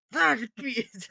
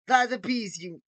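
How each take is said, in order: First: Put-on stronger, higher villain accent; more Gru accent. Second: Put-on higher, louder villain accent try; Gru accent. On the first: Villain voice rehearsal, heavier accented take. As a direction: push the accent a bit further. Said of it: "it's a bit more". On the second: Villain voice rehearsal, first accented take. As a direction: test the supervillain accent. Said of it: "He has this sort of accent".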